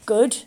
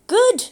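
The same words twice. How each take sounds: First: Said in the usual way. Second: High, loud incredulous echo; shocked disbelief. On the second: A narrator's reading. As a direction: throw the word back in outrage. Jeff echoes in disbelief.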